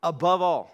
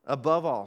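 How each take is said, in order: First: "above all" punched out, higher and louder; stress on above all. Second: Said in the usual way. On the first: Shown as a demonstration. Pastor to congregation, booming "above all" for emphasis. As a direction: hammer "above all" as the key command. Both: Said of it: "Teach the people of Israel this".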